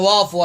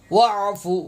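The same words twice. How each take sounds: First: وافو with the ain swallowed into a long a; wrong reading. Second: واعفو with a tight throaty ain before the f; correct ain. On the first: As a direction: mimic the mistake, وافو without any throat sound. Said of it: "عین کا تلفظ غلط پڑھتے ہیں". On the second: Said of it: "تلفظ کو بھی ٹھیک کر لیں". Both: Shown as a demonstration.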